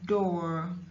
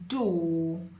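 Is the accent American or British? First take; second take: American; British. First: It is said in an American accent. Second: It is said in a British accent. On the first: "In American English it is door" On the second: "in British it's O"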